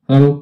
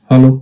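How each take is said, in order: No difference in how they are said.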